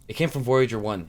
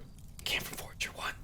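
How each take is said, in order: First: It is spoken in a normal, full voice. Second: It is spoken softly, close to a whisper. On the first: The speaker calls it wrong. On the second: The speaker calls it right.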